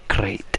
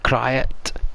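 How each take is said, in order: First: The word is said with one syllable. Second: The word is said with two syllables. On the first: This is how the speaker says it. "but I call that a crate" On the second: This is how some other people say it. "Some may pronounce it the Kryet"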